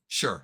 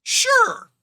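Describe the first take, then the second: First: Said in the usual way. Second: Very high, loud "sure"; exaggerated agreement. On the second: Game master giving in to a player's question, exaggerated agreement. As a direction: squeal out a loud, comically high yes.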